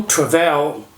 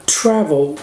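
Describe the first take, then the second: First: Travel wrongly stressed on the end, tra-VEL; stress on last syllable. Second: Travel stressed on the first syllable, TRA-vel. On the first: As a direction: shift the beat of travel onto vel. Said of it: "a tônica é na primeira sílaba". (travel com a tônica errada na última sílaba, tra-VEL) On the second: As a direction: say travel with the beat on tra, vel left weak. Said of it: "e não travel". (travel com a tônica na primeira sílaba, TRA-vel) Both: Shown as a demonstration.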